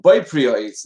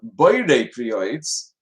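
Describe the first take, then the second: First: The first word is slurred and shortened. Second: The first word is said in full. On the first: It means something else and is not the blessing. The speaker calls it wrong. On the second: It says that God creates the fruit of the tree. The speaker calls it right.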